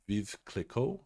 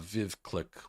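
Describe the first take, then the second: First: The second word is said with two syllables, 'klee-koh'. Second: The second word is said as one syllable, 'click'. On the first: The speaker calls it right. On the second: The speaker calls it wrong.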